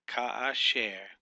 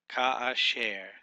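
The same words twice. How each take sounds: First: Ka asher again slowly, Ka stressed and falling; slow repeat. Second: Ka asher said slowly with a break after Ka; slow model word. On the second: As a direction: say Ka asher slowly for them to copy. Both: Shown as a demonstration. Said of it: "Can you say it?".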